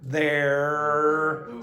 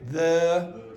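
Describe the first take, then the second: First: The final R sound is pronounced. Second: The final R sound is dropped.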